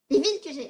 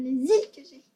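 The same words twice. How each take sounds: First: "villes" said with a clear "v", laughing at the slip; "Les villes" with a firm "veel", correcting herself; corrected word. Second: "les îles" read with a clear "z-il" liaison, first try; "les îles" said as "lay-zeel", the mistaken reading; misread word. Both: Shown as a demonstration. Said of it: "Non, t'as dit ça?".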